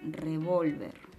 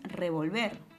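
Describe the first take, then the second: First: The stress is on the middle syllable. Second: The stress is on the last syllable. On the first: The speaker calls it right. "la mayor fuerza de voz está recayendo en la penúltima sílaba" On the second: The speaker calls it wrong. "no es revolver, ¿verdad?"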